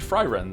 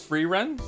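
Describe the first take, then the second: First: The first syllable sounds like 'fry'. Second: The first syllable sounds like 'free'. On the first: This is the German way to say it. "It's German, Joe? So it should be Fry Ren then" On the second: This is how the show says it. "How does she say it in the in the anime?"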